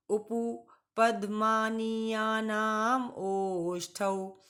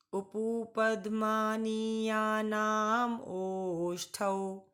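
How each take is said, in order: First: Slower second recitation, ओष्ठौ stretched out; repeat it again. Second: Slow sutra recitation, ओष्ठौ drawn out long; recite along. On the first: Teacher asks class to repeat the sutra slowly. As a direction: recite once more, slow and deliberate. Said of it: "एक बार फिर से बोलिएगा". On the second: Teacher leads students in reciting the sutra slowly. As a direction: say it slowly so the class can repeat. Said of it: "मेरे साथ बोलिए बच्चों". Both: Shown as a demonstration.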